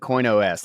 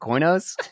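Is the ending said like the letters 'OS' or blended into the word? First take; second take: letters; blended. First: The ending sounds like the computer term OS. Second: The ending blends into the word as one syllable. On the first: It is read as coin plus operating system. "I've been saying CoinOS like it's like an operating system" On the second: It is read as a single name. "Is it Coinos?"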